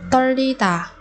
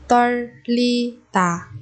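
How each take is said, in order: First: Said in the usual way. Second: 떨리다 slowly, each syllable held. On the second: Shown as a demonstration. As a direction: break 떨리다 into drawn-out syllables. Teacher models word syllable by syllable.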